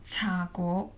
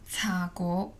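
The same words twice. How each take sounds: First: The word is pronounced in Cantonese. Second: The word is pronounced in Cantonese.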